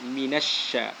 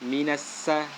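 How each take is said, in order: First: The consonant is a spread 'sh' sound. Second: The consonant is a plain 's' sound. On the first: The speaker calls it right. "tapi minasya" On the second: The speaker calls it wrong. "tidak boleh mengucapkan minassa"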